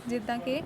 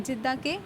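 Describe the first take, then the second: No difference in how they are said.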